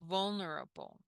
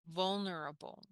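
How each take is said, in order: No difference in how they are said.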